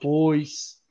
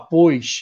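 First: It is said with a neutral accent. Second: It is said with a Carioca accent.

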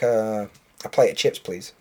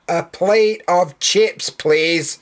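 First: It is said at a normal volume. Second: It is said more loudly. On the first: A plain first request. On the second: The request is repeated louder instead of rephrased.

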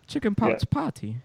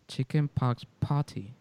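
First: It is said in an attempted British accent. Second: It is said in the speaker's own Latino accent.

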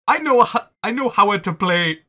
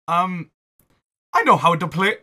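First: It is said in a put-on alien voice. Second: It is said in a put-on Italian accent. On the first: "I'm just going back to my alien impression" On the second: "it's so hard to do this Italian accent"

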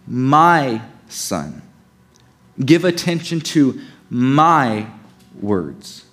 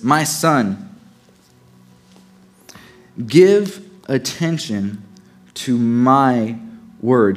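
First: The word "my" is stressed. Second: No word is specially stressed.

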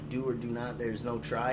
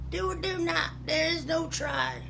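First: It is said in his normal voice. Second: It is said in a Yoda impression.

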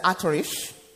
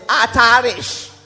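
First: It is said in an American accent. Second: It is said in an African accent.

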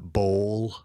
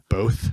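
First: The word is said with an L sound. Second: The word is said without an L sound. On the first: The speaker calls it wrong. "they have that like L sound" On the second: The speaker calls it right. "It's not bowl"

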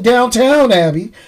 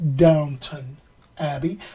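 First: The first word is said as downtown. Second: The first word is said as downton. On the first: The speaker calls it wrong. "I'd be wanting to call it Downtown Abbey" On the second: The speaker calls it right. "but it's Downton Abbey"

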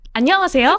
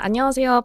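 First: It is said in a polished, pageant-style performing voice. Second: It is said in an ordinary, plain speaking voice. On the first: "if you switch on Miss Korea tone" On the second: "When you introduce yourself, you might do like"

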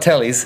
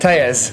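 First: The name is said like 'tellies'. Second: The name is said like 'tejas'. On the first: The speaker calls it wrong. "it's not Tellies" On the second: The speaker calls it right. "It's pronounced"

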